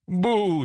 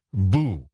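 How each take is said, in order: First: High ghostly boo; a ghost's boo, pitched well up. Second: Low-key scornful echo of a boo; mildly mocking, unafraid boo; dismissive boo. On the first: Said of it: "drawn-out boo". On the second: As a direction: throw the boo back, unimpressed. Narrator scornfully answers the ghost. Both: A narrator's reading.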